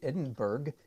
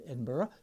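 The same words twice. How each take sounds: First: Edinburgh is said with a common American pronunciation. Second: Edinburgh is said the way locals say it. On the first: The speaker calls it wrong. "like eighty percent of the people in North Carolina would say" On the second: The speaker calls it right. "I said it right, didn't I?"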